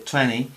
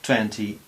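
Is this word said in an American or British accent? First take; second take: American; British. First: It is said with an American accent. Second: It is said with a British accent. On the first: "esto en inglés americano sería más, a veces se dice twenty" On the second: "Pero en inglés británico es twenty"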